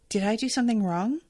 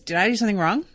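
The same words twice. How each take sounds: First: It sounds sincerely worried and caring. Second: It sounds offhand, defensive and unbothered. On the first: The speaker truly fears having made a mistake. "it's not, ... Not genuine concern" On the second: The speaker believes they did nothing wrong and only asks for form. "With this, like, I know that I didn't"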